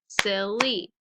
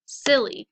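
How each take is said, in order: First: "silly" in two beats, SIL, then LY; syllable-by-syllable "silly"; split into syllables. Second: Said in the usual way. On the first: Shown as a demonstration. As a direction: break "silly" between its syllables. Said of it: "Two syllables". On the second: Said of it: "So let's practice them".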